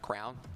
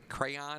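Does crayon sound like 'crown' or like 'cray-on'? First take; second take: crown; cray-on. First: The word is said like crown. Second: The word is said as cray-on. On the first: The speaker calls it wrong. "and not crown" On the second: The speaker calls it right. "it's actually pronounced a crayon"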